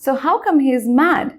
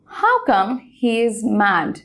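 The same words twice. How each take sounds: First: Slow, with "come" stressed and a rising end; slow demo question rising on "come"; questioning rise. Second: Slow, deliberate classroom demo; slow model sentence. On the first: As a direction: ask it as a real question, lifting at the end. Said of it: "এখানে mad অর্থে angry বলা হয়েছে". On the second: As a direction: read very slowly, falling at the end. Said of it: "দেখো প্রথম এক্সাম্পলটা". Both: Shown as a demonstration.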